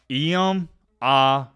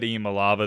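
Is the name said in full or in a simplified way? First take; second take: full; simplified. First: The name is said carefully in full. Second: The name is said in a simplified way. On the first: The speaker calls it right. "I will say it one more time for the people that don't know how to say his name" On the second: The speaker calls it wrong. "I said Iamaleava. The correct pronunciation is"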